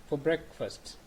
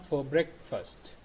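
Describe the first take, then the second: No difference in how they are said.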